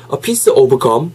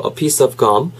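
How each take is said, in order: First: "of" as "o-beu", "gum" as "kkeom"; wrong Korean-style pronunciation. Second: "piece of" linked, "gum" with an open "uh"; natural English pronunciation. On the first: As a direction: add a vowel to "of" and say "gum" like Korean 껌. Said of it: "요렇게 하지 마시고". ("of gum"을 "오브 껌"처럼) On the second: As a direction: link "piece of" without an added vowel before "gum". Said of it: "하지 마시고". ("piece of"는 이어서, "gum"은 '감'에 가깝게) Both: Shown as a demonstration.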